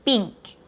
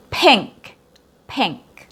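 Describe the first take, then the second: First: "pink" as a short, tight PEENK; clipped long E. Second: "pink" with the vowel open and unclipped; example vowel. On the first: Teacher showing what not to say, clipped tense vowel. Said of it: "not a shorter version of the". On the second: Teacher introducing the example word, modelled vowel. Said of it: "not a short I". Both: Shown as a demonstration.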